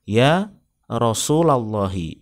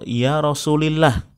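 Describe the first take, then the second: First: The vowel after Rasul is a. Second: The vowel after Rasul is i. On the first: The speaker calls it right. "yang betul adalah dinasobkan" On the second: The speaker calls it wrong. "itu juga salah"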